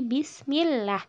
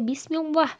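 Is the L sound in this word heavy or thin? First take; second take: thin; heavy. First: The L is thin, with lips not pushed forward. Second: The L is heavy, with rounded forward lips. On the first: The speaker calls it right. "tapi bismillah" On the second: The speaker calls it wrong. "bukan dibaca bismillah"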